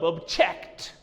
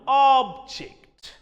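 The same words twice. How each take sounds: First: The stress is on the second syllable. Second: The stress is on the first syllable. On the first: It is used as a verb. "As a verb" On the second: It is used as a noun. "As a noun"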